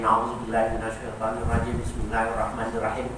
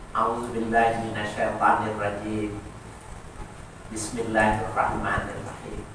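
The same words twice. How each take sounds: First: It runs on with no pause between phrases. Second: A short pause separates the two phrases. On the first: The speaker calls it wrong. "Jangan begitu" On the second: The speaker calls it right. "ada saktat, ada diam sejenak untuk memisahkan bacaan pertama dengan bacaan berikutnya"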